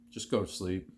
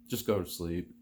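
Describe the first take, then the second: No difference in how they are said.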